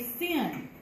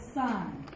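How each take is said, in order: First: Sin said like the word for wrongdoing, short i; wrong pronunciation sin. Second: Sine said like sign, long i; correct pronunciation sine. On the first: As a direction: say sin with a short i, not sine. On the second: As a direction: say sine to rhyme with fine. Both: Shown as a demonstration. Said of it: "but it is not sin".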